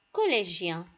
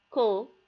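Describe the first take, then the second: First: Said in the usual way. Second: "co-lé-gien" in three separate beats, long pauses between; split into syllables. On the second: Shown as a demonstration. Teacher cutting the word for learners, "co-lé-gien" syllable by syllable. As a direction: say "co-lé-gien" as co, lé, gien, each apart. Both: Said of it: "passons le couper en syllabes".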